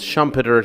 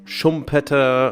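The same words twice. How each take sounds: First: The name is said in an English way. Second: The name is said in an Austrian German way. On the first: "I'll refer to him as Schumpeter" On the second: "since he is Austrian, uh, it would be Josef Schumpeter or something like that"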